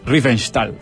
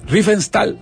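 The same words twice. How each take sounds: First: The middle consonant sounds like sh. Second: The middle consonant sounds like a plain s.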